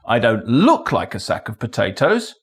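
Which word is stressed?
look. The stress falls on the word look. Maybe it is one rather than looking like one. "Maybe I am a sack of potatoes"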